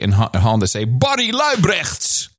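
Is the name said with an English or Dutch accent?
Dutch. The name is said with a Dutch accent. "in Holland they say"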